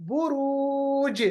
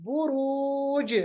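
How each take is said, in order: Both takes have the same delivery.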